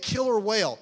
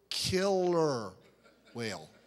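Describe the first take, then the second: First: It is said at normal speed. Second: It is said slowly.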